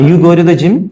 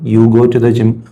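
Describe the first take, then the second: First: It is said with a questioning tune. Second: It is said as a plain statement.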